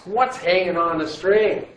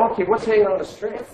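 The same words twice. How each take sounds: First: Slow, deliberate question as students should ask it; modelling the question. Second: Fast, bright re-ask with a higher lift on hanging; quick eager question. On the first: Teacher showing the class the question to ask, slow and deliberate. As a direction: spell out What's slowly, hanging on each word. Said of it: "You're supposed to ask". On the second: Teacher re-asking the question quickly once the class gets it, fast and eager. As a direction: rattle off "what's hanging on the string" eagerly. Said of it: "It's, it's th-, there". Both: Shown as a demonstration.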